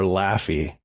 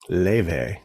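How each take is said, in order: First: The name is said with an f sound, like laffy. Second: The name is said with a v sound, like lay-vay. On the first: The speaker calls it wrong. "you want to call her Laffy" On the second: The speaker calls it right. "But it's Leve"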